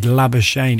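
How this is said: The name is pronounced the Australian way. "if he was in South Africa, it would not be said Labuschagne"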